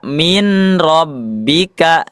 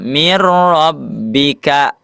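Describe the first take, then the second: First: The n sound is heard before the r. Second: The n merges into a doubled r sound. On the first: The speaker calls it wrong. "tidak dibaca min rabbika, tidak dibaca nun sukunnya" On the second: The speaker calls it right. "dibaca huruf selanjutnya yaitu huruf ro"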